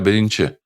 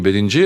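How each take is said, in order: First: The ending uses voiceless 'ch', as in the Kipchak dialect. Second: The ending uses voiced 'j', as in standard Crimean Tatar.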